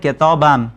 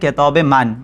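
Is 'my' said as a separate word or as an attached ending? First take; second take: attached ending; separate word. First: 'My' is reduced to an ending on 'book'. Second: 'My' is said as a separate word after 'book'. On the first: This is the everyday spoken form. "गुफ्तारी फारसी में ... इसे कहा जाता है किताबाम" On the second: This is the formal written form. "किताब मन जो है यूजुअली कम बोला जाता है"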